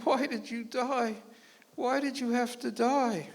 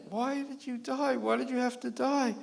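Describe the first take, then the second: First: Slow, higher wailing lament; mock widow's wail; piteous crying. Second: Mock widow's wail again; piteous crying. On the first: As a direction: mourn at the graveside, drawn out. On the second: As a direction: keep lamenting at the tombstone. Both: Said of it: "piteously crying".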